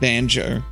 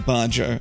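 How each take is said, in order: First: The word is said with an n sound, like banjo. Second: The word is said with an r sound, like barjo. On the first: The speaker calls it right. "I mean" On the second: The speaker calls it wrong. "I just mispronounced the word banjo"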